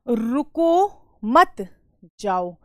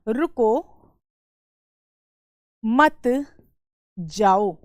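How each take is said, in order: First: The pause comes after 'मत'. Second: The pause comes after 'रुको'.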